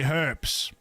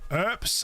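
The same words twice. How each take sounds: First: The word starts with an h sound. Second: The word starts without an h sound. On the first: "I say herbs. Because that's how it's spelled. It's spelled with an H" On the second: "instead of saying herbs"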